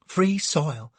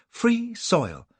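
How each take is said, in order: First: Sobbing. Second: Sobbing, higher. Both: A narrator's reading. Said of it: "sobs Cassie".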